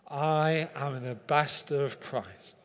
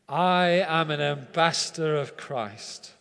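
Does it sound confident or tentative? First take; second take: tentative; confident. First: It is said tentatively, without much confidence. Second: It is said confidently, with commitment and courage.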